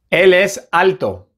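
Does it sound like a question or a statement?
statement. It is said with statement intonation. It states a fact.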